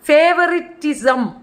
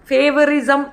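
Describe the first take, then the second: First: The middle 't' sound is pronounced. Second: The middle 't' sound is dropped. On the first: The speaker calls it right. "ഫേവറിറ്റിസം എന്നാ പറയുന്നത്" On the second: The speaker calls it wrong. "ഫേവറിസം എന്ന് പറയത്തില്ല"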